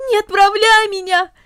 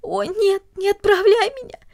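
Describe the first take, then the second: First: High, louder sobbing wail; louder wailing plea. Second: High, tearful wail; wailing plea. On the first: Cornelli wails again at her father, louder and tearful. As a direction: push the plea out harder, near a scream. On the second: Cornelli wails at her father as he enters, tearful. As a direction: cry out the plea. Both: A narrator's reading. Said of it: "запричитала она".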